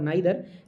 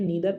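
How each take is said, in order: First: The first vowel sounds like 'eye'. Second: The first vowel sounds like 'ee'. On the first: This is the British form. "नाइदर जो होता है British accent होता है" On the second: This is the American form. "नीदर American accent है"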